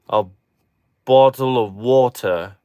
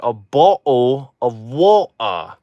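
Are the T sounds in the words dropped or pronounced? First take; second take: pronounced; dropped. First: The T sounds are clearly pronounced. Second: The T sounds are left out entirely.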